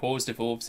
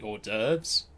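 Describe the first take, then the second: First: It is said like rhyming 'horse divorce'. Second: It is said like 'or-derv', silent letters dropped. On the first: The speaker calls it wrong. "that's what I read it as, and it rhymes" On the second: The speaker calls it right. "is actually"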